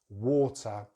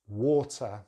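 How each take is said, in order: First: The middle T is a full, strong T. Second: The middle T is a full, strong T.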